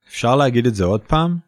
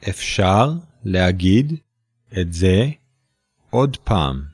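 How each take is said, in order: First: It is said fast. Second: It is said slowly.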